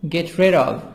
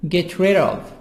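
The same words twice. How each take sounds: The two takes are said the same way.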